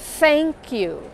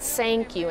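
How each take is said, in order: First: The first word starts with a TH sound. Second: The first word starts with an S sound. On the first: The speaker calls it right. "that little gap you need to get a good T H sound" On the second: The speaker calls it wrong. "people will think you're making an S sound"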